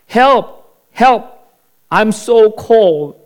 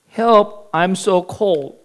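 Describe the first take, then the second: First: High, loud cry for help from a pit; shouting for help. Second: Weaker, miserable plea; a touch of a shivering whine. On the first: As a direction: call out desperately to be heard. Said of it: "So he shouted". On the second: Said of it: "shivering and miserable". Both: Acted.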